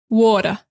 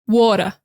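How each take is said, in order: Both takes have the same delivery.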